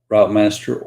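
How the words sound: The word has an American pronunciation. The speaker calls it wrong. "I keep Americanizing it"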